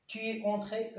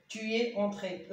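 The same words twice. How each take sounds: First: Said in the usual way. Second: Slow dictation. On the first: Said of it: "أو أكسون أو إلا كان". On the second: Shown as a demonstration. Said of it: "أو أكسون إلا كان مذكر مفرد".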